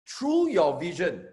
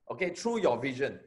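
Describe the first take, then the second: First: "through your vision" slowed and pressed, every word weighted; emphatic phrase. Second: Said in the usual way. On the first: Shown as a demonstration.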